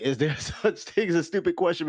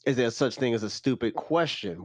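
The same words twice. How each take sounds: First: Laughing. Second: Said in the usual way. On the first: Real, not acted. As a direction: chuckle through the title. Repeats title while laughing.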